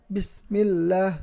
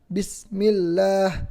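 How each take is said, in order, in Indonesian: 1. Bunyi s diputus mendadak. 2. Bunyi s diputus mendadak.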